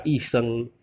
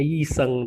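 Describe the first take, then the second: First: YI SHENG starting on a pure i vowel; correct reading. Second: YI SHENG with an audible y glide; spelled-out reading. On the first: Teacher modelling the word for doctor, bare vowel. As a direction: drop the y glide in YI. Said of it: "tapi dibaca Yi Sheng". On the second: Teacher showing the written form, y pronounced. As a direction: start YI with a y consonant. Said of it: "Memang bacaannya Yi Sheng". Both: Shown as a demonstration.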